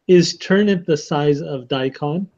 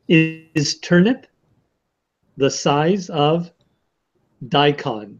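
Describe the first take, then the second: First: It is said at normal speed. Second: It is said slowly.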